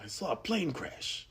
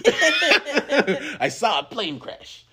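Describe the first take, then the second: First: Soft, high put-on character voice; Natasha Lyonne's Russian Doll character. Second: Loud, very high, drawn-out hammed-up voice; Natasha Lyonne's Russian Doll character. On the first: Actress as her series character in the movie, soft impression. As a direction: imitate her softly, pitched up. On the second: Actress as her series character in the movie, loud laughing impression. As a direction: blow the impression up big, slow and laughing. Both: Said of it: "her Russian doll character".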